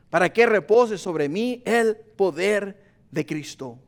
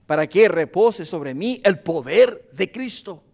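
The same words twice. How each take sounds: First: Each word of "Para que repose sobre mí el poder de Cristo" laid down slowly; slow it down and let the words land; slow emphatic repeat. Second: Said in the usual way. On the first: Shown as a demonstration. Pastor repeating the verse to the church, slow and emphatic. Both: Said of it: "repeated slower for emphasis".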